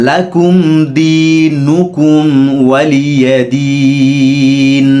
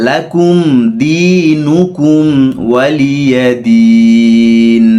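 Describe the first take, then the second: The two takes are said the same way.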